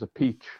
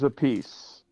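First: The name sounds like the phrase 'a peach'. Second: The name sounds like the phrase 'a piece'. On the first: This is the Italian pronunciation. "He says a peach. The Italian way" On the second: This is the changed, anglicized pronunciation. "Carmine's a piece"

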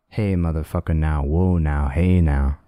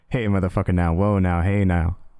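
First: It is said slowly. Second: It is said fast.

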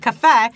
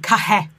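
First: The middle consonant is a plain F sound. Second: The middle consonant is a hard H sound. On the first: "where I will say cafe" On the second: "they have a very hard H sound"

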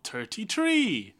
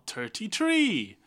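First: It is said in an Irish accent. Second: The same.

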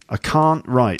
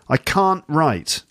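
First: The T at the end of can't is pronounced. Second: The T at the end of can't is dropped.

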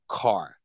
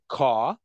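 First: It is said in an American accent. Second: It is said in a South African accent.

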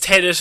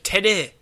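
First: The final T sound is pronounced. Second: The final T sound is left silent. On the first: "I'm assuming it's Tenet" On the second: "It might be a silent T at the end"

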